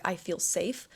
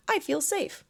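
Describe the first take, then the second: First: Said in the usual way. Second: High, forced, unbelievable "I feel safe"; unconvincing affirmation. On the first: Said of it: "and your body doesn't believe it". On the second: Shown as a demonstration. Coach mocks an affirmation the body rejects, pitched high and forced. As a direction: say it like you don't buy it. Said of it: "No, you don't".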